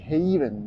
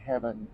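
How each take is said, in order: First: The first vowel sounds like 'ay' in haven. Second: The first vowel sounds like 'eh' in heaven. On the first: The speaker calls it right. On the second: The speaker calls it wrong.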